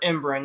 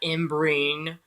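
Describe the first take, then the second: First: The last syllable has a short 'in' sound. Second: The last syllable has a long 'ine' sound. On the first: The speaker calls it right. "the proper pronunciation" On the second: The speaker calls it wrong.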